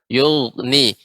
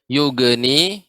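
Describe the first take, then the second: First: The middle consonant is a soft throaty gh. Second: The middle consonant is a hard plain g. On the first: The speaker calls it right. "pengucapan huruf gha" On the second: The speaker calls it wrong. "tidak boleh yugni ya"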